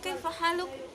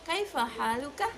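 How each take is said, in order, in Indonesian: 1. Kata terakhir berakhir dengan konsonan mati. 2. Kata terakhir berakhir dengan vokal pendek.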